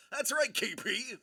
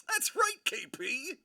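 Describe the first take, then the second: First: Said in the usual way. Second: High squeaky agreement. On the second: Real, not acted. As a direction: squeal "That's right" up high.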